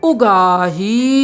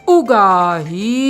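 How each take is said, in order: The two takes are said the same way.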